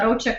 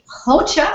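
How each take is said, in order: First: The first sound is an English-style R. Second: The first sound is a throaty H-like sound. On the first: The speaker calls it wrong. "That's in English kind of pronunciation" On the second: The speaker calls it right. "You say it in the throat"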